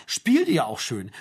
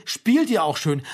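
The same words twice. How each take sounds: First: Slow, mocking echo of the pastor's words. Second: An outraged, louder repeat of the quote; indignant. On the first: Mother mimics the pastor's cosy question, slow and mocking. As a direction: draw the words out, mocking him. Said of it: "Das hat er zu denen gesagt". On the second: Retold or imitated. Mother repeats the pastor's words in outrage. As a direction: throw the words back in disbelief. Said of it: "wiederholte sie".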